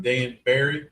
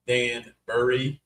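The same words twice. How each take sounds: First: "Danbury" ending like "berry"; Danbury as "Dan-berry". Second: "Danbury" drawn out, ending like "burry"; Danbury as "Dan-burry". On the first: Host checking a town's name, saying "Danbury" as Dan-berry. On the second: Host offering the other pronunciation, "Danbury" as slow Dan-burry. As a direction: say "Danbury" slowly as Dan-BURR-ee, rising. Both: Shown as a demonstration. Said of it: "did we pronounce that right?".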